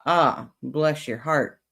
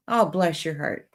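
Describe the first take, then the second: First: Slow, drawn-out sarcastic sympathy. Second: Sincere, kindly sympathy; meant nicely. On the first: Streamer showing chat the Southern put-down, very sarcastic. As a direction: stretch it out with mock pity. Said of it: "mean it very sarcastically". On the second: Streamer showing chat the kind Southern blessing, meant nicely. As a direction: say it as if you mean it nicely. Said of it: "say it and mean it nicely". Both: Shown as a demonstration.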